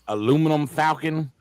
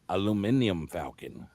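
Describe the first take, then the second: First: The word is said as aluminum, four syllables. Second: The word is said as aluminium, five syllables. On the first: The speaker calls it wrong. "listen how boring that sounds" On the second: The speaker calls it right. "listen how fucking grand that sounds"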